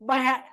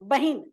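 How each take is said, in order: First: An 'a' vowel follows the h sound. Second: An 'i' vowel follows the h sound. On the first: It is how most people actually say it. The speaker calls it wrong. "बहन बहन करते हैं सब" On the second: It is the standard form. The speaker calls it right. "सही शब्द है बहिन"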